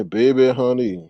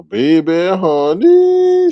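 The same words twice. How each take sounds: First: Said in the usual way. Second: High, stretched, loud final word; drawn-out catchphrase. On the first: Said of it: "until I hear you say". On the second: Shown as a demonstration. Host obliging a viewer's request, drawn-out catchphrase. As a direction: let the last word soar and hang. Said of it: "until I hear you say, "Baby, honey".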